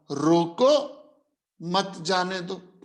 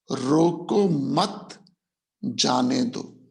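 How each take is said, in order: First: "रोको" alone with a rise, pause, then "मत जाने दो" together; pause after रोको. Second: "रोको मत" slowly as one unit, pause, then lower "जाने दो"; group रोको with मत, break, then जाने दो; pause after मत. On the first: Bribe-taker misreading Akbar's order, pause after रोको. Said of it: "उसी सेंटेंस को कैसे पढ़ा". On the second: Akbar's written order to let boats pass, pause after मत. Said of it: "कोमा जाने दो". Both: Shown as a demonstration.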